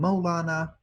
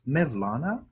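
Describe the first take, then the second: First: It is said with a Persian pronunciation. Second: It is said with a Turkish pronunciation. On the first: "The Persians call him Maulana" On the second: "the Turks pronounce it as Mevlana"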